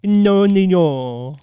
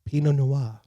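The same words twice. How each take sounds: First: Pinot Noir slowly as "pinno nu-yor"; mispronounced wine name. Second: Pinot Noir said as "pee-no nwar"; corrected pronunciation. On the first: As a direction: drag out Pinot Noir wrongly. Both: Shown as a demonstration. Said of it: "not knowing how to pronounce it".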